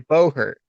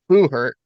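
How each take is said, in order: First: The first syllable sounds like 'bow'. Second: The first syllable sounds like 'boo'. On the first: This is how the other person says it. "you and A K D say say bow hurt" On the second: This is the speaker's own way of saying it. "I say boo hurt"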